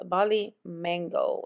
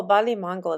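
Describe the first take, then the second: First: Said in the usual way. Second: Bali Mango in a Spanish accent, "MAHN-go". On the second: Real, not acted. Naming a body care scent in store, Spanish accent. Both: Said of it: "Spanish and English kind of accent".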